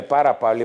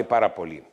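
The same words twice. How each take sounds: First: Said in the usual way. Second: Πάρα πολύ dropped much lower, each word weighed; stressed repeat. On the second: Shown as a demonstration. Doctor scolding viewers, stressing πάρα πολύ low. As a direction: lean hard on πάρα πολύ, low and heavy. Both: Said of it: "Όταν λέμε πάρα πολύ".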